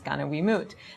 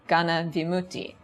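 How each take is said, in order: First: The term is said in its Burmese form. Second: The term is said in its Pali form.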